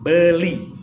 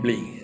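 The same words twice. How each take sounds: First: Every sound in the word is articulated clearly. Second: The sounds in the word are slurred and unclear. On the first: The speaker calls it right. "ngomongnya harus jelas" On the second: The speaker calls it wrong. "Jangan beli. ... kurang elegan"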